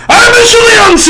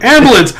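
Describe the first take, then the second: First: High, drawn-out mock shout; aggressive German. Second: Said in the usual way. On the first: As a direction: yell it like absurdly aggressive German. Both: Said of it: "like, super aggressive all the time".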